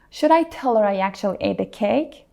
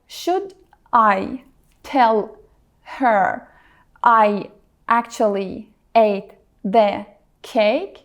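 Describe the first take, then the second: First: The words blend smoothly together without breaks. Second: Each word is said separately with small breaks. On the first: The speaker calls it right. "It flows smoothly without any strong break" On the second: The speaker calls it wrong. "pronounce every word separately and clearly, like a robot"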